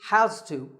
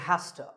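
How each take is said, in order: First: The words are said fully and separately. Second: The words blend into one reduced form. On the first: "we use has to" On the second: "which is reduced to has to"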